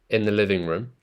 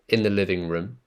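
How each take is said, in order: Both takes have the same delivery.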